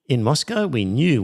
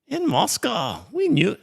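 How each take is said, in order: First: It is read in the speaker's ordinary accent. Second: It is read in a put-on foreign accent.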